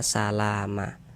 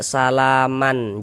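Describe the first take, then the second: First: The word ends with a long a vowel. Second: The word ends with an n sound. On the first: The speaker calls it right. "tapi dibaca salama" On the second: The speaker calls it wrong. "jangan dibaca salaman"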